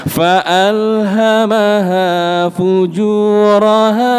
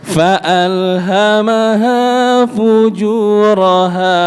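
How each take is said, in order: The two takes are said the same way.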